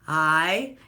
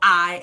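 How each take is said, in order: First: The word starts smoothly with an open throat. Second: The word starts with a hard throat catch. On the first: The speaker calls it right. "Already having your throat open" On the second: The speaker calls it wrong. "I don't like glottal attacks"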